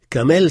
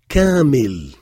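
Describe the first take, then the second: First: The word has a French-style pronunciation. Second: The word has an Arabic-style pronunciation. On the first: The speaker calls it wrong. "Si vous le prononcez à la française, autant arrêter d'apprendre l'arabe. Donc il ne faut pas dire camel" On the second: The speaker calls it right. "Camel, c'est pas arabe. C'est Kamil"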